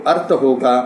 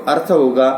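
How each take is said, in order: No difference in how they are said.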